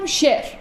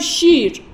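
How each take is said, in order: First: The vowel is a mid 'e' sound. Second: The vowel is a full long 'ee' sound. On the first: "یعنی یه رو تلفظ نکنم، بهش میگفتم یای مجهول" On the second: "کامل تلفظ کنم بگم شیر، این میشه یای معروف"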